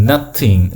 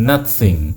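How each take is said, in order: The two takes are said the same way.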